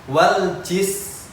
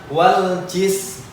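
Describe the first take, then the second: The two takes are said the same way.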